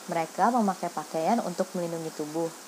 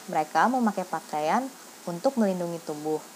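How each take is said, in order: Both takes have the same delivery.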